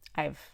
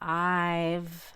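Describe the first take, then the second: First: The vowel is said with the mouth half open. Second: The vowel is said with the mouth fully open. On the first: "I can just say I've" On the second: "So instead of saying I've"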